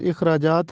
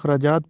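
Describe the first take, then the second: First: The first vowel is a short 'i' sound. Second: The first vowel is a short 'a' sound. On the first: The speaker calls it right. "ये दुरुस्त तलफ़ुज़ इखराजात है, अलिफ के नीचे ज़ेर लगा है" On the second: The speaker calls it wrong. "हम इसको ज़बर के साथ पढ़ते हैं, अखराजात पढ़ते हैं, जो कि गलत है"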